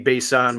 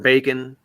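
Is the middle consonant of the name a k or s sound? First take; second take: s sound; k sound. First: The middle consonant is an s sound. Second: The middle consonant is a k sound. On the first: This may be the name's true pronunciation. "the real pronunciation of his last name would be Bason" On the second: This is how most people say the name. "everybody calls him Bacon"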